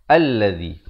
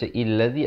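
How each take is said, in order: First: The word begins with an a vowel. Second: The word begins with an i vowel. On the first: The speaker calls it right. "Bacaan yang betul ialah alladhi" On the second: The speaker calls it wrong. "Jangan baca illadhi"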